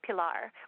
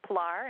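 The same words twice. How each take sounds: First: A short E-like vowel follows the P. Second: The P runs straight into the L. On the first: "which is sort of a little bit of an E sound at the beginning" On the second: "just kind of run the P and L together"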